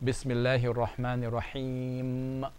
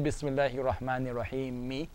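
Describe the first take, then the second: First: The final vowel is left off at the end. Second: The final vowel is sounded at the end. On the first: The speaker calls it right. "when you say" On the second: The speaker calls it wrong. "we don't say"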